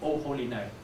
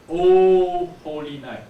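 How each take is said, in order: First: Said in the usual way. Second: O held long and loud, fully rounded. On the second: Shown as a demonstration. Teacher showing how it should sound, long round O. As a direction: stretch out a round O in O holy night. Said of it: "This is how it should sound".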